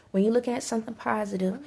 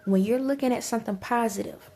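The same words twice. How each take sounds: The two takes are said the same way.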